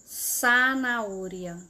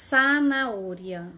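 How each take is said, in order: No difference in how they are said.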